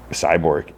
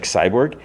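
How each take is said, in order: First: Said in the usual way. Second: "Cyborg" pitched up with a rising end; echo question. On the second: Retold or imitated. Woman echoes John's answer "Cyborg", questioning. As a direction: repeat "Cyborg" higher, as a surprised question.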